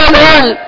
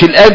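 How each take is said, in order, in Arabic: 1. يُقال بدهشة استفهامية متعجبة. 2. يُقال كعبارة مسطحة عادية. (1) "تعجب تستفهم كيف نحن إخوان الآن" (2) "مش الآن بقى كلنا إخوان"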